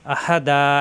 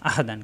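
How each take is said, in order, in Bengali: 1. শব্দটি টানা স্বরে শেষ হয়। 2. শব্দটি ন-এর উচ্চারণে শেষ হয়। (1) "এই যে একটু লম্বা করলাম" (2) "দাল দুই জবর দান তানবিন আহাদান"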